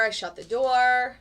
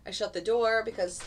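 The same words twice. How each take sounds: First: Slow, louder, stress on door; emphatic. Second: Said in the usual way. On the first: Shown as a demonstration. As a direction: lean on "door" slowly and loudly.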